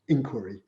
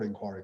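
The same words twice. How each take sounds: First: It is said with an American pronunciation. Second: It is said with a British pronunciation.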